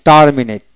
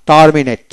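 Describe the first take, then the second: No difference in how they are said.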